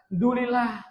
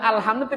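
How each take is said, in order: First: The opening syllables are dropped from the word. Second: All syllables of the word are pronounced fully. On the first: The speaker calls it wrong. "Padahal ada alhamdulillah" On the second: The speaker calls it right. "alhamdulillah tadi dibaca"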